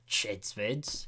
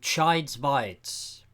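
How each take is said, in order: First: The vowels in the name are short. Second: The vowels in the name are long. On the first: The speaker calls it wrong. "It's not Chids Vids" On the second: The speaker calls it right. "That's right, you've been saying it wrong this whole time"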